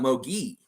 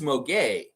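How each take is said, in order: First: The surname ends with an 'ee' vowel. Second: The surname ends with an 'ay' vowel. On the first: This is how the team's own player's name is said. "we got Mo Gee" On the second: This is how the other player's name is said.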